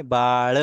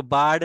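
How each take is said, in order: First: बाळ drawn out, ending in curled-tongue "la"; retroflex l ending. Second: बाळ ending in a hard retroflex d; misread with d. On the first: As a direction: say बाळ as "baa-la", not "baad". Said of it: "कैसे पढ़ेंगे". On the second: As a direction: say बाळ as "baad". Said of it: "तो इसको बाळ नहीं". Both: Shown as a demonstration.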